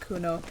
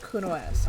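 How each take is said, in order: First: The name is said without an extra final S. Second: The name is said with an extra final S. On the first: This is how the speaker used to say the name. The speaker calls it wrong. "I always pronounced Kuno" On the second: This is how the name is apparently meant to be said. The speaker calls it right. "Apparently, it's pronounced Kuno-S"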